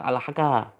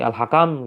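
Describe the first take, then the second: First: The word is cut off before the final m. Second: The word ends with a final m sound. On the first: "malah dibaca al-haka" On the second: "Sebelum selesai al-hakam"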